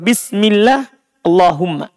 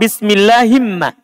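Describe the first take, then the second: First: There is a break between the two words. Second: The two words run together without a break. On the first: "bisa juga" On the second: "Bisa dibaca begitu"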